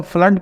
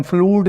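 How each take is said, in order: First: फ्लड said with a short hut vowel, "flud" like cut; teacher models फ्लड with the short u of hut; flood with short u. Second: फ्लूड said with a long oo as in moon; teacher models the mistaken फ्लूड, vowel stretched to oo; wrong long oo. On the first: Teacher showing students the right reading, short u. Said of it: "इसे हम फ्लड पढ़ते हैं". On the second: Teacher showing students the wrong reading, long oo. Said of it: "इसे हम फ्लूड नहीं पढ़ते". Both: Shown as a demonstration.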